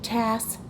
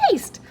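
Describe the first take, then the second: First: The vowel is short, like in 'cat'. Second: The vowel is long, like in 'cake'. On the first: The speaker calls it wrong. "Now I chunked it, tast, but that's not a word" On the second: The speaker calls it right. "I recognize a bossy E there, so it must be taste"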